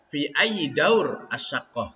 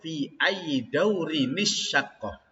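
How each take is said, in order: First: The last two words are read apart, unlinked. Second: The last two words are linked with an added vowel. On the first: "Kalau dibaca terpisah" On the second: "Kalau dibaca nyambung"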